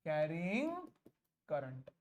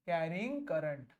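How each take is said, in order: First: Low, split by a long pause; low, spaced-out dictation; dictating word by word. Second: Slow, low dictation; low, measured phrase; dictating notes. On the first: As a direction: separate the words for copying. Repeats it word by word. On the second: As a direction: say it slowly for copying. First take of dictated phrase. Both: Real, not acted.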